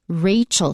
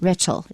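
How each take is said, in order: First: The first vowel is a long 'ay' sound. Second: The first vowel is a short 'eh' sound. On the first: The speaker calls it right. "Rachel also contains an A" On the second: The speaker calls it wrong. "not Rachel"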